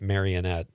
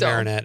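First: The name is said with four syllables. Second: The name is said with three syllables.

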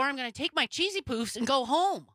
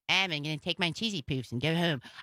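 First: It is said in the speaker's own voice. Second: It is said in a put-on cartoon voice. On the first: "I will not do Cartman's voice" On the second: "maybe I'll do a Cartman voice"

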